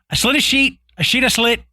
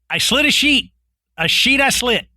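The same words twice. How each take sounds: First: The phrase is spoken quickly. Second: The phrase is spoken slowly. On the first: "I'll say it faster" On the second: "if you say it that slow"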